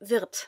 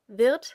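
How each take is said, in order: First: The word ends with a sharp T sound. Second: The word ends with a softer D sound. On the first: "So if there was a T, it would be even sharper" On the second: "saying wird is a little softer"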